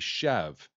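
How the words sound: The word is said the French way. "the correct way to pronounce it in, is French. It would be chev"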